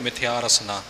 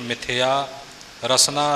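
First: The phrase stops with a pause after rasna. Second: Rasna runs on without a pause after it. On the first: Rasna is grouped with the preceding word. The speaker calls it wrong. "ਰਸਨਾ 'ਤੇ ਜਾ ਕੇ ਵਿਸਰਾਮ ਨਹੀਂ ਲਾਉਣਾ" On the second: Rasna is grouped with the following words. The speaker calls it right. "ਇਉਂ ਉਚਾਰਨ ਕਰਨਾ"

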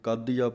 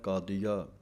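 First: The word is said tightly and forcefully. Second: The word is said loosely and softly. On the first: The speaker calls it wrong. "ਕਈ ਕਾਦੀਆ ਪੜ੍ਹਦੇ ਹਨ ਕੱਸ ਕੇ" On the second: The speaker calls it right. "ਪੋਲਾ ਜਿਹਾ ਪਾਠ ਹੈ ਕਾਦੀਆ"

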